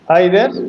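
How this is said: The word is said in a British accent. "One is British accent, British pronunciation"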